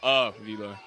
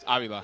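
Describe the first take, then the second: First: The first vowel sounds like 'uh'. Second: The first vowel sounds like 'ah'. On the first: The speaker calls it wrong. "the first one is like U H, so it's not Avila" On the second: The speaker calls it right. "It's Avila"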